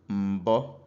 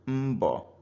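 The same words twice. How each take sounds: First: The M carries a low tone. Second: The M carries a high tone. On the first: It means comb. "when we assign low tone to the M" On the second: It means effort. "assign high tone to the M"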